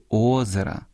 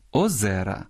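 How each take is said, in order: First: "озера" stressed on the first syllable, Озера. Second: "озера" stressed on the middle syllable, озЕра; stress on second syllable. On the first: Host showing stress after numerals, "озера" with first-syllable stress. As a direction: lean on the О of "озера". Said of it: "зберігають наголос однини". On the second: Host showing the plural, "озера" with middle-syllable stress. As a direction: lean on the Е of "озера". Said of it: "у множині змінюють наголос". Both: Shown as a demonstration.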